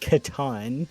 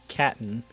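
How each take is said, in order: First: The name is said with its original pronunciation. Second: The name is said with an American pronunciation. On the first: The speaker calls it right. "if you want to pronounce it correctly" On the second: The speaker calls it wrong. "it is our obligation and solemn duty to mispronounce things that sound vaguely foreign"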